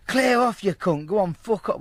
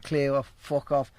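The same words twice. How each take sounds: First: High, loud imitated send-off; mock angry shout. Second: Slow send-off at usual pitch; toned-down retold dismissal. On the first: Geezer to caller banging on door, mock angry shout. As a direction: shout them away from the door, acting it. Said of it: "Well, not like that". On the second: Geezer sending caller away as they do, toned-down dismissal. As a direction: dismiss them slowly, without shouting. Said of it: "but you know as they do".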